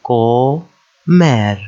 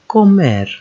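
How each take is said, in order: First: Comer split into CO, pause, MER; syllable by syllable. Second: Comer run together as one word, falling at the end; joined syllables. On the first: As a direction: sound out Comer with the consonants pulled apart. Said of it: "we separate the consonants". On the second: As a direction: join CO and MER without a gap. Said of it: "two syllable words". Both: Shown as a demonstration.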